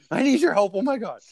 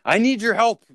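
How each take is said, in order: First: High, strained desperate plea; panicked customer. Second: High, loud desperate plea; panicked customer. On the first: Picturing a frightened client begging for help, high and strained. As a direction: plead like someone just diagnosed. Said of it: "you can picture it". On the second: Imitating a panicked client walking into the store, high plea. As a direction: beg for help like you're scared. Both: Retold or imitated.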